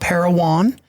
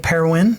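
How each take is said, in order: First: It is said the way outsiders say it. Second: It is said the way locals say it. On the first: The speaker is not from the area. The speaker calls it wrong. "not Parowan" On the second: The speaker is from the area. The speaker calls it right. "if you're local, you say Parowan"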